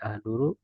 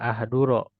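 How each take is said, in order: First: The word ends with a u vowel. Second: The word ends with an a vowel. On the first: "dibaca doma"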